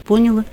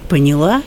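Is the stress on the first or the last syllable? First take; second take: first; last. First: The stress falls on the first syllable. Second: The stress falls on the last syllable. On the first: This is a southern regional habit. The speaker calls it wrong. "я сама приехала в Москву и говорила «поняла»" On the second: This is the accepted standard form. The speaker calls it right. "надо говорить «поняла»"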